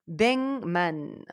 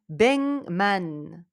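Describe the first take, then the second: Both takes have the same delivery.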